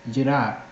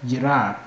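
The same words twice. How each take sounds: The two takes are said the same way.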